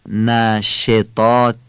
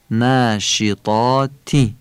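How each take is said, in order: First: ناشطات slowly, with a Persian-style e; Persian kasra. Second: ناشطاتی slowly, with a short Arabic i; Arabic kasra. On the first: Teacher showing the wrong vowel. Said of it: "فارسیه". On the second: Teacher giving the correct Arabic vowel. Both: Shown as a demonstration.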